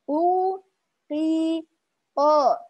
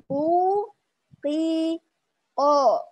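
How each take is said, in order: Both takes have the same delivery.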